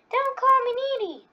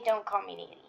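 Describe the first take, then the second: First: Much higher, squeaky angry cartoon girl; Needle impression. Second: Said in the usual way. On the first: Doing Needle for viewers, a much higher angry yell. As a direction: shriek it high like an offended cartoon needle. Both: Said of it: "I'm gonna do my Needle impression".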